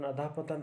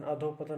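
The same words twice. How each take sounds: First: "अधः पतन" said as adha patan, with a short a where the visarga is; teacher gives the right form "अधः पतन", ending adha with a short a; correct pronunciation. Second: "अधो पतन" said as adho patan, with an o sound in place of the visarga; teacher voices the mistaken form "अधो पतन" with adho; wrong pronunciation. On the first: Teacher showing students the correct way, clear and plain. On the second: Teacher warning students of the common error, softly. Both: Shown as a demonstration. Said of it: "अधो पतन नहीं".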